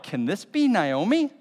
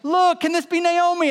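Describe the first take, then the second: First: It is said in a scornful, gossiping tone. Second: It is said in an excited, joyful tone.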